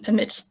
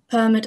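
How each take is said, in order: First: The stress falls on the second syllable. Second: The stress falls on the first syllable. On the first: "or the second one" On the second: "whether the first syllable is stressed"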